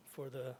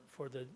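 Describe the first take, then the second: No difference in how they are said.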